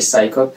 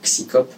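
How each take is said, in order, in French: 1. Le mot se prononce à l'anglaise. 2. Le mot se prononce à la française. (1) "Ça se prononce en anglais" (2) "en prononçant en français"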